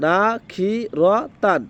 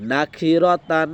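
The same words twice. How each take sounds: First: না, খি, র, তান each apart; syllable by syllable. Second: না খি র তান run together as one word; quick, joined up. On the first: Teacher spells out the word for learners, syllable by syllable. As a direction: leave a pause between the syllables of না খি র তান. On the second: Teacher answers how to read quickly, joined up. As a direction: link না খি র তান without pauses. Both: Shown as a demonstration. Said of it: "তো দ্রুত কেমনে করব?".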